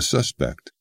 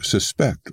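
First: The stress is on the first syllable. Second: The stress is on the second syllable. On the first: It is used as a noun. "That changes once it becomes a noun, thus the suspect" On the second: It is used as a verb. "if you treat suspect as a verb"

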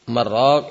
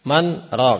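First: The words run together with no pause. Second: A brief pause separates the two words. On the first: It means meat broth. The speaker calls it wrong. "Merok itu kuah daging" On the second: It means who will cure. The speaker calls it right. "siapa yang meruqyah?"

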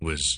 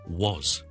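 First: The word is said in a reduced, weak form. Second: The word is said in a full, strong form. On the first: The word draws no attention in normal speech. "如果我哋好弱咁咧，正常讲嘢嘅时候唔draw 任何attention 嘅时候咧" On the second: The word draws attention to itself. "如果我哋好强咁读咧"

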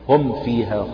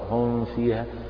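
First: The m is closed firmly and clearly pronounced. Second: The m is closed lightly and blurred with nasality. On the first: The speaker calls it right. "هنا أكد على الإظهار" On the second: The speaker calls it wrong. "خطأ هم فيها فيكون الإطباق يعني خفيفا فيتحول إلى إخفاء"

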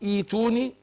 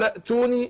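First: It begins with a long ee vowel, no glottal stop. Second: It is joined to the previous word, with a glottal stop. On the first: Reading starts from this word. "مبدأ بها أقول إيتوني عشان هبدأ بالهمزة مكسورة" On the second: The word is read joined to the word before. "قال أتوني"

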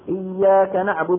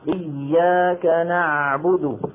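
First: The ayn is said quickly and clipped short. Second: The ayn is held with a slight stretch. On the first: The speaker calls it wrong. "ما يقول إياك نعبد نعبد هكذا ينطقها بسرعة" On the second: The speaker calls it right. "لا بد من هذه المطة"

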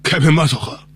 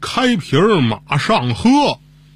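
First: The phrase is said somewhat more slowly. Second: The phrase is said slowly, each word clear. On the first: "您慢点说。" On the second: "您再慢点说。"

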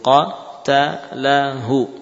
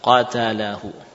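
First: The word is broken up letter by letter. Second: The word is read smoothly as one unit. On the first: "Pertama mungkin harus huruf demi huruf" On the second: "baru dilafadzkan diulang lagi"

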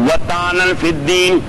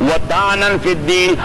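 Both takes have the same delivery.

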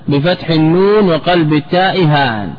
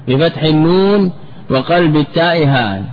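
No difference in how they are said.

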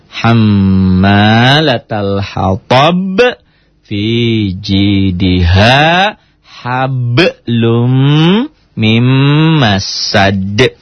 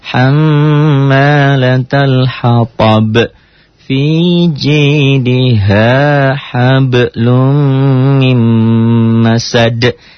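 First: Each sound is struck separately in a choppy way. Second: The sounds flow together smoothly without jerks. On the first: "jadi teori hentaknya dulu" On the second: "Sudah lancar"

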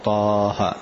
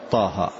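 First: The vowel is held for an extra long length. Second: The vowel is held for a short length. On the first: The speaker calls it wrong. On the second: The speaker calls it right.

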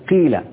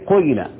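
First: The first vowel is a pure, full i. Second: The first vowel is i tinged toward u. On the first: "الكسر إشباع الكسر أو إخلاص الكسر" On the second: "أشم الكسر ريحة الضم"

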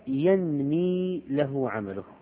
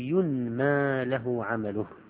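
First: The first word ends in a long 'i' sound. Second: The first word ends in a long 'a' sound. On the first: The deeds themselves keep increasing. "إذا قلت ينمي يعني يزيد" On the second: The deeds are made to increase for him. "وإذا قلت ينمى له عمله يزاد له عمله"

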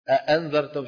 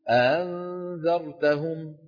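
First: The hamza is a full, complete glottal stop. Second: The hamza is eased, with the vocal folds not fully closed. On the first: "بدل ما يقول" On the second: "شو بيقول؟"

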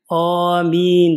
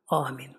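First: It is loud with a drawn-out vowel. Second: It is short and quiet. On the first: This follows the Shafi'i practice. "aşikar amin der. Bir de med çekerek" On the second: This follows the Hanafi practice. "Hanefi de bu kısa ve gizli okunur"

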